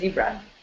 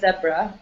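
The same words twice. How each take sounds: First: The word is said with an American pronunciation. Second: The word is said with a British pronunciation. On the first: "but Americans say zebra" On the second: "British in British English, I think they say zebra"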